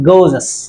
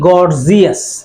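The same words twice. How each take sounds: First: Said with standard English vowel sounds. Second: Said with local, spelling-based vowel sounds. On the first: The speaker calls it right. "কিন্তু এটা আসলে গর্জিয়াস" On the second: The speaker calls it wrong. "আমরা সাধারণত এই শব্দটাকে কি বলি? আমরা বলি গর্জিয়াস"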